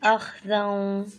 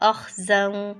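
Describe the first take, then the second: First: The middle consonant is soft, without hissing. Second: The middle consonant is harsh, with hissing. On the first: The speaker calls it right. "सही क्या है" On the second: The speaker calls it wrong. "सख्ती से अगर पढ़ेंगे तो कैसी आवाज़ होगी"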